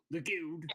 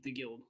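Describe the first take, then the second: First: "The Guild!" pitched up, hammed-up; mock emphatic correction. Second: Said in the usual way. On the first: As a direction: punch GUILD in "The Guild!" like a joke.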